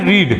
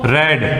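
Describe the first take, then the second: First: The vowel is long, like 'reed'. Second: The vowel is short, like 'red'. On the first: It is the base form of the verb. "लेकिन इसको बोलते हैं रीड" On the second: It is the past form of the verb. "इसको रेड"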